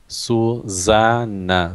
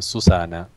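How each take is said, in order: First: The middle consonant is a buzzing z sound. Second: The middle consonant is a hissing s sound. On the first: The speaker calls it right. "so it's double N, and the the middle S is Z" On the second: The speaker calls it wrong. "I was like completely Spanish"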